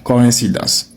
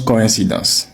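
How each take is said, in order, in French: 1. Les deux premières voyelles se prononcent séparément. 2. Les deux premières voyelles se prononcent séparément.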